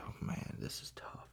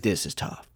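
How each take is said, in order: First: Very soft, whispered aside to self; hushed, deflated reaction; dismayed mutter. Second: Said in the usual way. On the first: Retold or imitated. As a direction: say it under your breath, barely voiced. Voicing own reaction to the film.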